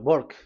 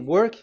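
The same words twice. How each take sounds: First: It has an Indian accent, W sounding like B. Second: It is said plainly, starting with a W.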